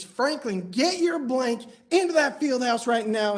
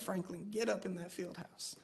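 First: Imitating a fired-up coach, loud and insistent; storming coach. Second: Imitating a humbled coach, much softer; swallowed pride. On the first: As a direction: raise your voice as the coach giving an order. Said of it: "the coach storms up to him". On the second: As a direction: give the order quietly, backing down. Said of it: "the coach swallowed his pride".

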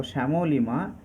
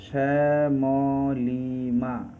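First: Said in the usual way. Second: Very slow, stretched Shyamolima, as শ্যা-ম-লি-মা; syllable split. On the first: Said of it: "syllable কি ভাঙলে হবে". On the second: Shown as a demonstration. Teacher breaks Shyamolima into syllables, syllable split. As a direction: draw out each of the four syllables in Shyamolima. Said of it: "এর syllable কি ভাঙলে হবে".

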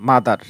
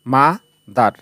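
First: Said in the usual way. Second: "মা", short wait, then "দার"; broken into syllables. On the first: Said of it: "মা উচ্চারণ করার পর কিছুটা দেরি করে". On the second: Shown as a demonstration. Teacher demonstrating syllable division, "মা" ... "দার" in two pieces. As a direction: break the word into "মা" and "দার" with a gap. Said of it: "ব্যঙ্গে ব্যঙ্গে উচ্চারণ করতে হচ্ছে".

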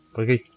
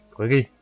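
No difference in how they are said.

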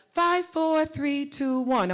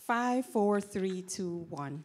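First: Walk the voice down from five to one; descending register scale. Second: Walk the voice down the numbers; descending register scale. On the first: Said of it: "practice in different registers". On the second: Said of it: "I'm gonna hear you do a scale". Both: Shown as a demonstration.

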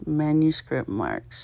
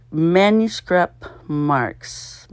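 First: Said in the usual way. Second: Drawn-out "Manuscript marks" read slowly, each word stretched; slow clue reading. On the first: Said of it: "repeating the clue". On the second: Shown as a demonstration. Solver reading the crossword clue to herself, very slowly. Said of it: "reading the clue out slowly".

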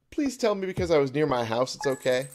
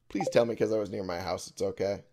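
First: Loud, high, anxious begging; panicked plea. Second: Said in the usual way. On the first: Real, not acted. Player hoping being near home counts, panicked plea. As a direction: plead urgently, voice raised. Pleading after time ran out.

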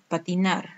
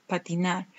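No difference in how they are said.

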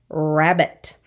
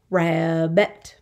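First: Said in the usual way. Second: "Rabbit" split in two, ra-bbit; syllable by syllable. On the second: Shown as a demonstration. Teacher counting two syllables, "Rabbit" in parts. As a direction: say "Rabbit" as two drawn-out beats. Syllable lesson, word broken up.

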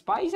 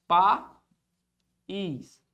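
First: Said in the usual way. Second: "País" split as PA, long pause, ÍS; syllable separation. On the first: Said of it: "qual é a separação de país?". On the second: Shown as a demonstration. Teacher answers Marcelo on separation, syllable by syllable. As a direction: say "País" in two detached syllables. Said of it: "País é assim".

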